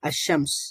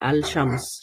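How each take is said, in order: First: The L blends into a doubled sh sound. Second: An L sound is heard before shams.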